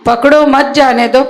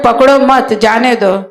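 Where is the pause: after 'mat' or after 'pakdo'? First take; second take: after pakdo; after mat. First: There is a pause right after 'pakdo'. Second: There is a pause right after 'mat'. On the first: Catch him, do not let him go. "પકડો પછી comma મત જાને દો" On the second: Do not catch him, let him go. "સાંભળવા વાળા એ રીતે સાંભળ્યું"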